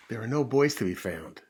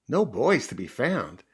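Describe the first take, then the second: First: Said in the usual way. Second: Put-on slow, swooping disbelief on "boys"; dismayed echo. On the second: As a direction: echo it like a crestfallen puppy. Puppy echoes the news in dismay.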